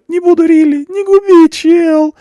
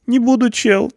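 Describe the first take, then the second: First: Very high, much louder desperate cry; desperate begging. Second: High whiny plea; pleading. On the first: Punk begs not to be ruined, loud desperate cry. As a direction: plead at the top of his voice. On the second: Punk promises not to be dangerous, high plea. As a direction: start begging. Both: A narrator's reading. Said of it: "взмолился тот".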